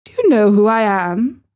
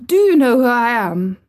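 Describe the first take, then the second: First: Mildly haughty demand; more imperious. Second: Haughty demand, pitched up. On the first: Boy presses the silent gardener, imperious. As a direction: insist on an answer, imperiously. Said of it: "demanded Colin still more imperiously". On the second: Young rajah confronts the staring gardener, demanding. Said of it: "demanded the Rajah". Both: A narrator's reading.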